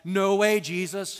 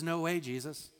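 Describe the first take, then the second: First: Sudden loud, raised objection; blunt protest. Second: Said in the usual way. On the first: Retold or imitated. Peter refusing to let Jesus lay down his life, loud protest. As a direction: burst in loudly to object.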